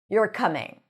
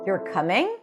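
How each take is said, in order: First: The pitch falls at the end. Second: The pitch rises at the end. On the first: It is a certain statement. "It's a statement. The pitch that goes down at the end" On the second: It is an uncertain question. "When the pitch goes up at the end"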